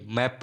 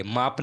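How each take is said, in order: First: मैप with an open ae vowel; correct pronunciation. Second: माप with a long aa vowel; wrong pronunciation. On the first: Teacher correcting learners' reading, correct pronunciation मैप with ae. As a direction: say मैप like English "map". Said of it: "मैप पढ़ेंगे". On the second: Teacher warning learners off a misreading, wrong pronunciation माप with aa. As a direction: say माप, aa as in "father". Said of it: "माप नहीं". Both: Shown as a demonstration.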